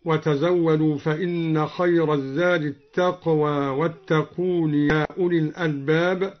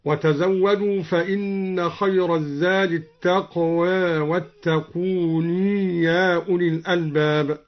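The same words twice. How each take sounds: First: Said in the usual way. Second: التقوى ends near "eh", واتقون in long "-ooni"; taqlil and sounded ya. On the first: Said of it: "قلل الدوري التقوى". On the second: Shown as a demonstration. Teacher showing al-Duri's reading, "taqweh" for التقوى, "wattaqooni" for واتقون. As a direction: soften final a of التقوى, add long ya to واتقون. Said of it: "قلل الدوري التقوى وأثبت الياء".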